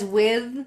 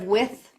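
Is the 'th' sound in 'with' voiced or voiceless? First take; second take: voiced; voiceless. First: The final 'th' is voiced and buzzing. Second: The final 'th' is voiceless and breathy. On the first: The speaker calls it right. "I would sing it as with" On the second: The speaker calls it wrong. "instead of with"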